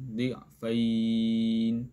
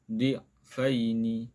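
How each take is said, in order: First: The final vowel is drawn out long. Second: The vowel stays short and flows on. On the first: The reader stops at this word. "Kalau kita wakaf kita baca panjang" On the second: The reader continues without stopping. "Kalau kita wasal kita tak baca panjang"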